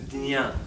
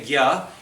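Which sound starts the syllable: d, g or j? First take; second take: d; g. First: The syllable is said as d plus nya. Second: The syllable is said as g plus ya. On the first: This is the way in some regions. "In some parts of India they say the dnya" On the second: This is the Hindi way. "in Hindi we say gya"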